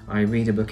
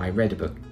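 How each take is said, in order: First: The word read rhymes with reed. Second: The word read rhymes with red. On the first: It is a habit in the present. "every night" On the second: It happened in the past. "last week"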